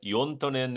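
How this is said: The name is said with a Finnish pronunciation. "in the Finnish"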